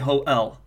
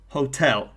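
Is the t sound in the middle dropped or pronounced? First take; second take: dropped; pronounced. First: The t sound in the middle is dropped. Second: The t sound in the middle is pronounced.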